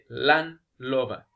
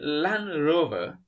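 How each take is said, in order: First: The second word begins with an l sound. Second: The second word begins with an r sound. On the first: "they'll say Land Lover" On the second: "instead of saying Land Rover"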